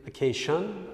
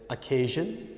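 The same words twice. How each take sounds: First: The middle consonant is replaced by another sound. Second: The middle consonant is the usual s-i-o-n sound. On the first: The speaker calls it wrong. "no such word" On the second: The speaker calls it right. "first correctly"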